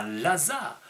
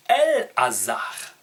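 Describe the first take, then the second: First: "Lazare" as one French word, opening on L; French form Lazare. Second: "El-Hazar" split in two, with a strong, separate "El"; Hebrew form El-Hazar. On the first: Teacher citing the French name to be corrected, saying "Lazare" as one word. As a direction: say "Lazare" run together, without the opening "El". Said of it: "On ne dit pas Lazare". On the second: Teacher correcting Lazare to the Hebrew, "El-Hazar" in two firm parts. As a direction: hit "El" firmly, then a distinct "Hazar". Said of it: "on dit El-Hazar". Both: Shown as a demonstration.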